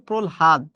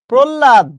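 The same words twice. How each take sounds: First: "প্রহ্লাদ" said as prol-had; correct pronunciation. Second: "প্রহ্লাদ" loud and high as prol-lad; common mispronunciation. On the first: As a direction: sound l then h in "প্রহ্লাদ". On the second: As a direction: punch the double l in "প্রহ্লাদ". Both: Shown as a demonstration. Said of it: "উচ্চারণটা হচ্ছে".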